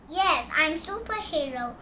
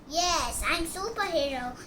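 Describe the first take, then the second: No difference in how they are said.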